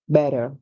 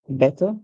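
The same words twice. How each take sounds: First: The middle consonant is a soft d-like sound. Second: The middle consonant is a clear t sound. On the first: "according to the Americans" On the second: "according to the British"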